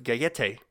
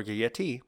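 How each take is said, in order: First: Gayete ending in a "tay" sound; alternative pronunciation. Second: Gayete ending in a "tee" sound; alternative pronunciation. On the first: Host offering a name's first pronunciation, Gayete ending "tay". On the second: Host offering a second pronunciation, Gayete ending "tee". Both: Shown as a demonstration. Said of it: "or Gayete".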